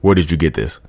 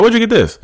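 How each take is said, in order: First: Low, guarded question after a pause; mock a cornered cheater asking quietly; understated caught-out questioning. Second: High-pitched, put-on innocent question; feigned innocence in a high voice; playing along. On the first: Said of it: "the pause of being caught". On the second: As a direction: act pleasantly puzzled, pitched way up. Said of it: "I would've went along with it".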